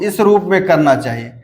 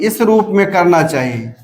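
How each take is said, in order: The two takes are said the same way.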